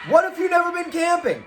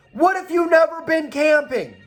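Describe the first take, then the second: First: Higher, fast shouted question; emphatic shout. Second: Said in the usual way. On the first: Shown as a demonstration. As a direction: fire the question out as a challenge. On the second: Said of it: "repeated louder".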